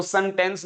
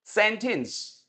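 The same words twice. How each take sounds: First: सेंटेंस said as 'sun-tens'; mistaken pronunciation. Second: सेंटेंस as SEN-tens; correct pronunciation. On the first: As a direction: show the wrong सेंटेंस with 'sun' start. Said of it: "वो सेंटेंस नहीं होता". (सेंटेंस को गलत 'सनटेंस' कहना) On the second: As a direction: model सेंटेंस with clear 'sen', falling. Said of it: "इसको बोलिए पहले सेन". (सेंटेंस, 'सेन' से शुरू) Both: Shown as a demonstration.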